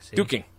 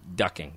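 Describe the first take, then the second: First: The first vowel is long, as in 'do'. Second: The first vowel is short, as in 'duck'. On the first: This is how people in Scotland say it. "In Scotland, it's called... Dooking" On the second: This is the usual general form of the word. "it's actually ducking"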